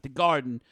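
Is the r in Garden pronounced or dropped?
pronounced. The r in Garden is pronounced. The speaker calls it wrong. "Not the Garden"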